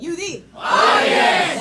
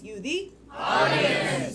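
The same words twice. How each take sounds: First: It is said with much more energy. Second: It is said at a normal energy.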